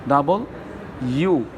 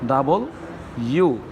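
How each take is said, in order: No difference in how they are said.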